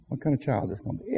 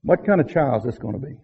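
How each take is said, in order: First: Much softer, quick repeated question; soft echo. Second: Said in the usual way. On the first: Shown as a demonstration. Parents wondering about their child, softer echo. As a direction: echo the question under your breath. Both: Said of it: "and we wonder".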